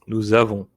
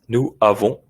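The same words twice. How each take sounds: First: The words are joined with a linking z sound. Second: The words are said apart without a linking sound. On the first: It sounds properly French. The speaker calls it right. "You can hear the elision, la liaison" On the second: It sounds less French. The speaker calls it wrong. "it's not incorrect"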